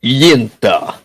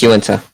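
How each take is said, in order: First: Yinta in a Russian accent, YIN-tuh. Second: Uinta said as you-IN-tuh; correct pronunciation. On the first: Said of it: "if you do it with a Russian accent". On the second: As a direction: say Uinta with the stress on IN. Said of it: "It's pronounced Uinta". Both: Shown as a demonstration.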